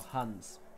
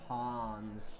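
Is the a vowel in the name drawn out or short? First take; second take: short; drawn out. First: The a vowel is short and clipped. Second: The a vowel is drawn out, American-style. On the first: The speaker calls it right. "the concept of a short A" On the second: The speaker calls it wrong. "They say"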